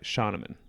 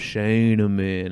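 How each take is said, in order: First: The name is said quickly with an O vowel. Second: The name is said slowly and drawn out. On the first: This is how native speakers of the name's home language say it. "more of like Scheinemann, like much faster, an O sound" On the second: This is how the family usually says it. "long and stretched out and very southern"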